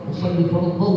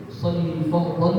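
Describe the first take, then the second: No difference in how they are said.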